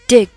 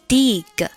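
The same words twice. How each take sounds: First: The vowel is short and lax. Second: The vowel is long and tense. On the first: The speaker calls it right. "正确的发音应该是" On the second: The speaker calls it wrong. "示范一下错误的发音"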